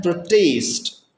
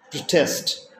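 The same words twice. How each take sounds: First: "protest" as a verb, second syllable stressed, slow. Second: "protest" as a noun, first syllable stressed. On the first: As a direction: say "protest" with weight on TEST. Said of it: "as a verb". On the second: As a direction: say "protest" with weight on PRO. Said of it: "differ only in how they are stressed". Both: Shown as a demonstration.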